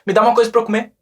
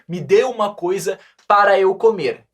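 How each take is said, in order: First: The words are contracted and run together. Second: Each word is pronounced separately and carefully. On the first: A native speaker talks this way in real life. The speaker calls it right. "Viu que eu contraí tudo? Eu juntei" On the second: A learner reads it as written. The speaker calls it wrong. "Ele vai tentar pronunciar tudo bem certinho, bem corretamente"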